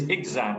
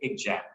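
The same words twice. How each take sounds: First: The middle sound is a buzzing 'z'. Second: The middle sound is a 'j' sound. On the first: The speaker calls it right. "it is not egg and jam, but it is exam" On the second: The speaker calls it wrong. "they use a j sound instead, and they say exam"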